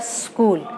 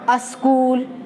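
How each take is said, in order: First: The word begins directly with the s sound. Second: A short vowel comes before the s sound. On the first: The speaker calls it right. "उसका शुद्ध उच्चारण होता है स्कूल" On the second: The speaker calls it wrong. "जैसे सब लोग कहते हैं"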